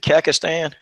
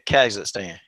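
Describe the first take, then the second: First: The middle is said without a 'z' sound. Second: The middle is said with a clear 'z' sound. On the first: The speaker calls it wrong. "so is it Kakistan?" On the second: The speaker calls it right. "okay, Kazakhstan"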